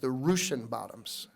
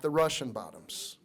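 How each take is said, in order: First: Russian is said with an older local pronunciation. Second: Russian is said with the usual standard pronunciation. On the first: The speaker calls it right. "that's how they used to pronounce it here in Lincoln" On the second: The speaker calls it wrong.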